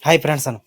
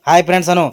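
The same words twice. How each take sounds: First: Said in the usual way. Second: Put-on coaxing a child. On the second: Shown as a demonstration. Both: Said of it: "hi friends ಅನು ನೋಡಮ್".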